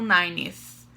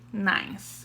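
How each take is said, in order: First: The word is said with an extra vowel syllable. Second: The word is said as one short syllable. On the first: The speaker calls it wrong. "não nineth" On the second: The speaker calls it right. "você vai pronunciar ninth"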